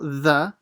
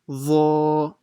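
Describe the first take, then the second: First: The sound is thin and light. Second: The sound is heavy and full-mouthed. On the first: The speaker calls it wrong. "So it's not the" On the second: The speaker calls it right. "it's full mouth"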